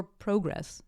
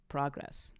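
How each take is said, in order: First: "progress" with a long O, PRO-gress; Canadian-style "progress", first vowel as in "go"; Canadian pronunciation. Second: Said in the usual way. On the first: Shown as a demonstration. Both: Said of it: "Maybe that's how they say it in Canada".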